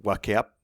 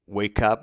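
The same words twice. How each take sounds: First: "wake up" read as spelt, "wah-keh up"; mock the wrong "wake up", wah-keh ap; spelling pronunciation. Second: "wake up" with English long a, like "wayk up"; correct pronunciation. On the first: Teacher shows students the wrong reading of "wake up", mock demo. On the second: Teacher models "wake up" correctly for students, clear demo. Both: Shown as a demonstration.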